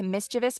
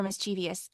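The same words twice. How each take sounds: First: Mischievous in three syllables, stressed on the first; mischievous with no extra ee before the ending; standard pronunciation. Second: Mischievous in four syllables, stressed on the second; mischievous with an added ee before the ending; alternative pronunciation. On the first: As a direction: say mischievous as MIS-chuh-vus. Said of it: "I don't know the answer to". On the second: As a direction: say mischievous as mis-CHEE-vee-us. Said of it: "I have to look it up". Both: Shown as a demonstration.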